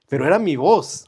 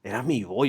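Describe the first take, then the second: First: "era" pushed up and loud in "pero era mi voz"; stress on era. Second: Said in the usual way. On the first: Real, not acted. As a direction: hit "era" hard to insist. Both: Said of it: "Que era mi voz".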